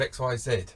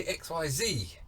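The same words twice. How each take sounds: First: Z said as "zed"; X Y Z, ending on "zed"; British letter name. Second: Z said as "zee"; slow X Y Z, ending on "zee"; American letter name. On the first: Shown as a demonstration. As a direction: say Z to rhyme with "bed". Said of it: "instead of X Y Z". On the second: Acted. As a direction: say Z to rhyme with "see". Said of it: "tempted to ask our American friends".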